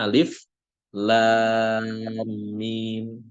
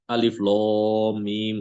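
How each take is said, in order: First: The lam is pronounced light and thin. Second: The lam is pronounced heavy and thick. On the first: The speaker calls it right. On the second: The speaker calls it wrong. "Nggak ada satupun yang membaca dengan tebal"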